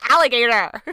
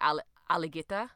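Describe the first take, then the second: First: It is said in an American accent. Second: It is said in a West Indian accent. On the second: "How do you say it with the West Indian accent?"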